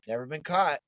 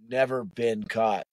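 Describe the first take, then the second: First: It is said lightly, as a joke. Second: It is said flatly, in earnest.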